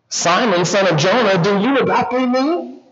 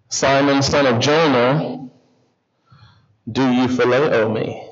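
First: Questioning. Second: Low, measured question with pauses; gentle question. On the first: Jesus asks Peter a second time, questioning. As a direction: lift the pitch and stretch the final words. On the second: Jesus asks Peter the third time, gently. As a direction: ask it lower, stretching the name. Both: Retold or imitated.

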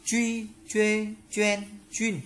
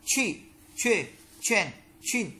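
First: "Truy, chuê, choen, chuyên" high, with a light unaspirated tr; light tr sound. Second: "Chi, chuê, choen, chuyên" high, each onset strongly aspirated; strongly released q. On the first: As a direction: recite "Truy, chuê, choen, chuyên" starting gently, no puff of air. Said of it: "Chữ di đọc giống trở nhẹ". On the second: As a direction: recite "Chi, chuê, choen, chuyên" with a forceful puff of air. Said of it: "Chữ quy bật mạnh". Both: Shown as a demonstration.

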